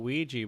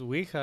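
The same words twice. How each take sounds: First: The word is pronounced the English way. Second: The word is pronounced the Spanish way. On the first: "in English, why do we call it a Ouija board?" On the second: "in Spanish is Ouija"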